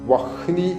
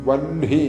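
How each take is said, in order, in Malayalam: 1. 'h' ശബ്ദം 'n'-ന് മുമ്പ് വരുന്നു. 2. 'n' ശബ്ദം 'h'-ന് മുമ്പ് വരുന്നു. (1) "ഇവിടെ എഴുതിയിരിക്കുന്നത് വഹ്നി എന്നാണ്" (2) "ചൊല്ലേണ്ടത് വഹ്നി എന്നാണ്. ന പ്ലസ് ഹായാണ്"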